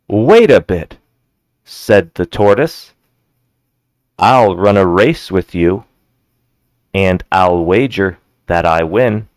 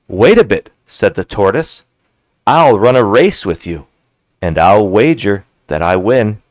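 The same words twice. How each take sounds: First: It is read more slowly. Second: It is read at normal speed.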